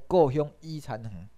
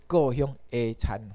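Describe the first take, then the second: First: 伊 said as the English letter name "ee"; wrong reading as "i". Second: 的 said as Taiwanese "e", like "eh"; correct reading as "e". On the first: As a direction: misread the particle in 故乡伊残垣 as a long "ee". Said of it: "毋是伊吼". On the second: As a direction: read the particle in 故乡的残垣 as "eh". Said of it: "这呢是下啦". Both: Shown as a demonstration.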